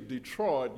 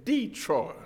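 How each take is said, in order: First: Detroit is said without the Middle Tennessee pronunciation. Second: Detroit is said with a Middle Tennessee pronunciation. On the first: "some of you Middle Tennesseans don't say Detroit" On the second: "you say Detroit"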